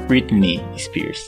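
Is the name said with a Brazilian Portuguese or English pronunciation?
English. The name is said with English sounds. The speaker calls it right. "você tem que falar Britney Spears"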